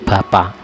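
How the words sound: The final k sound is dropped. "huruf K tidak dibaca"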